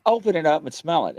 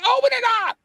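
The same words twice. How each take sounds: First: Said in the usual way. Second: Much higher, pushed out in exasperation; exasperated, high-pitched plea to open it; exasperated insistence. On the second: Retold or imitated. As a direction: demand it, voice leaping up.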